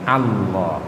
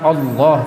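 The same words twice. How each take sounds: First: The first vowel sounds like A. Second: The first vowel sounds like O. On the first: The speaker calls it right. "A, ... tapi Allah" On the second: The speaker calls it wrong. "ya bukan O. Bukan Allah"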